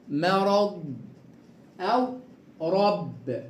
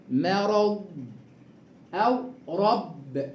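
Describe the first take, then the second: No difference in how they are said.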